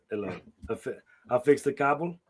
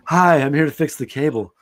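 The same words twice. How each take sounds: First: Lightly voiced European cable guy; mock foreign accent for a porn handyman; a hint of a Big Lebowski-style European accent; European stud accent. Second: Lightly voiced cable repairman; loud, cheesy porn-film greeting; porn cable guy. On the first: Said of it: "I'm just thinking Big Lebowski". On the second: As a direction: announce yourself like a hammy adult-film handyman. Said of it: "There's several variations".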